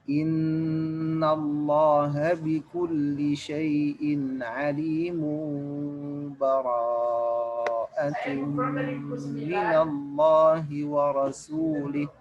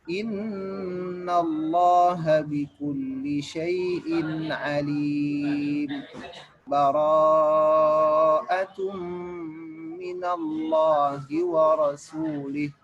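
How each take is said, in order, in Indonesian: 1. Kedua ayat disambung tanpa jeda. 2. Jeda singkat tanpa napas memisahkan kedua ayat. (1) "wasal, ya, disambung. Antara mim dengan ba disambung" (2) "Sakta itu berhenti sebentar tanpa bernafas"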